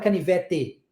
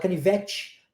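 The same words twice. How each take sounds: First: The final t is a plain t sound. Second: The final t sounds like ch before i. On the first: "a gente não fala canivete" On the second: "nós aqui no Sudeste pronunciamos muito ti"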